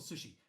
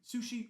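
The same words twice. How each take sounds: First: The first vowel sounds like 'uh'. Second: The first vowel sounds like 'oo'. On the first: "or an uh?" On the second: "Is it an oo"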